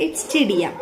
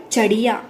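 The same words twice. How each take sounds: First: चिड़िया with a clear i in the first syllable; चिड़िया said correctly; corrected pronunciation. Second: चड़िया with a short a in the first syllable; चड़िया said wrong, no i sound; wrong vowel. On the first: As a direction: say चिड़िया properly, chi not cha. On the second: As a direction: say चड़िया as the mistaken spelling reads. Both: Shown as a demonstration. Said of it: "It's not चड़िया".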